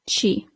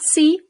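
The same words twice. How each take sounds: First: The letter is said like Italian 'chee'. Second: The letter is said like English 'see'. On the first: The speaker calls it right. "but C" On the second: The speaker calls it wrong. "So not C"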